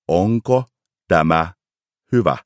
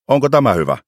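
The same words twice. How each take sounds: First: It is spoken slowly, each word clearly articulated. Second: It is spoken at a normal conversational pace.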